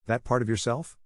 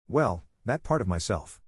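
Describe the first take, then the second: First: "That part of yourself?" spat back, mildly incredulous rise; a mild echo, biting on "part". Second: Said in the usual way. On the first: A narrator's reading. Sadie throws Michael's phrase back at him, a mild spit. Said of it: "I practically spat the words out".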